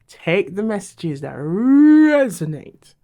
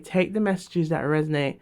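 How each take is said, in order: First: It is said with strong, forceful energy. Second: It is said in a calm, ordinary voice.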